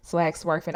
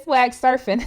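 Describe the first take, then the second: First: "Swag surfing" with an extra w, as "swag swerfing"; slip of the tongue. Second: "swag surfing" with a clean s, no w in "surfing"; corrected pronunciation. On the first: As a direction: repeat the slip in "surfing" as "swerfing", low and soft. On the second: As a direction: say "surfing" as SUR-fing, correcting the slip. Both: Real, not acted. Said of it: "I meant swag surfing".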